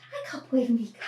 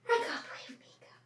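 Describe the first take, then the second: First: Said in the usual way. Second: Quick soft whisper. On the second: Real, not acted. Repeat whispered to puppy.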